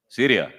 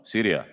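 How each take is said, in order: First: "Syria" called out louder for an answer; calling again louder. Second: Said in the usual way. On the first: Real, not acted. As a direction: call "Syria" across the room.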